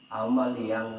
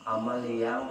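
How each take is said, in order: Both takes have the same delivery.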